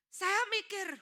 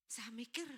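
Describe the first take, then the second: First: Loud, high outburst; emphatic repetition. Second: Soft, reflective remark; pondering. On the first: Preacher tells congregation he was thinking, emphatically. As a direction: punch the thought out loudly. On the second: Preacher tells congregation he was thinking, softly pondering. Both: Retold or imitated.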